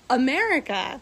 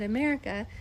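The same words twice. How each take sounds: First: The word is said slowly and deliberately. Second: The word is said at normal speed.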